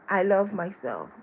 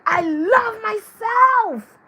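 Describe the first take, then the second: First: It is said in a casual, steady tone. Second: It is said with strong personal feeling.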